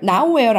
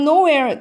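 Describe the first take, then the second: First: The word begins with the sound 'now'. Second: The word begins with the sound 'no'. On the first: The speaker calls it wrong. "nowhere 아닙니다. 아이들이 now하고 발음하는데" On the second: The speaker calls it right. "no하고 where이 만난 거예요"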